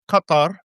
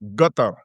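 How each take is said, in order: First: The word starts with a deep back Q sound. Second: The word starts with a hard G sound. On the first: This is the written standard form. "as it's written" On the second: This is how Gulf dialects say it. "with a G"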